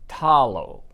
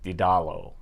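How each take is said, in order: First: The name starts with a T sound. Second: The name starts with a D sound. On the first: The speaker calls it right. "the correct pronunciation in Korean is Talo" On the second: The speaker calls it wrong. "I've been wrong about the pronunciation"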